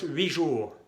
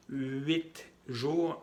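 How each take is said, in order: First: Huit jours said wi ʒu, t dropped; silent t. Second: Huit jours with the t of huit pronounced; wrong t sounded. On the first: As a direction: drop the t of huit before jours. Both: Shown as a demonstration. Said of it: "no, decimos huit jours".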